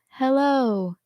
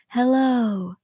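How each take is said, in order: First: It is spoken softly with little audible air. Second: It is spoken with extra air in the voice. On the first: "a little bit softer" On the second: "a little bit more airy"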